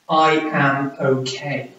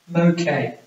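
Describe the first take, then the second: First: Each word is said fully and separately. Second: The first two words merge into one syllable. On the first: The speaker calls it wrong. "don't say" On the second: The speaker calls it right. "Try to speak more like this"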